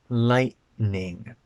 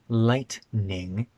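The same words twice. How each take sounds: Both takes have the same delivery.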